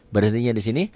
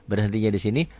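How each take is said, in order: Both takes have the same delivery.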